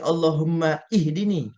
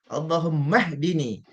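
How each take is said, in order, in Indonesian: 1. Vokal i dibunyikan sebelum 'hdini'. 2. Kata-katanya disambung tanpa vokal sebelum 'hdini'. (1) "Kita tak baca" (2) "Kalau baca wasal, baris tu tak bunyilah. Sebab kita baca sambung"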